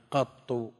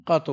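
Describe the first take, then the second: First: قط with open qaf, held double ta, ending in u; doubled ta pronunciation. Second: قط with open qaf and short undoubled ta before u; light ta pronunciation. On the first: Teacher reads out the best-known form, قط said "qattu". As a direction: say قط as "QAT-tu", a-vowel, doubled t. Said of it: "فتح القاف وتشديد الطاء المضمومة". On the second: Teacher shows the lightened form, قط said "qatu". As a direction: say قط as "QA-tu", a-vowel, single t. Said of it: "بتخفيف الطاء وفتح القاف". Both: Shown as a demonstration.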